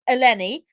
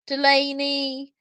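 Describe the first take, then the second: First: The name begins with an 'e' vowel. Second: The name begins with a 'd' sound. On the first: This is the name's proper form. The speaker calls it right. "once you know how it's pronounced, it's quite easy" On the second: Others got the name wrong. The speaker calls it wrong. "her name described um, by news companies in every kind of way"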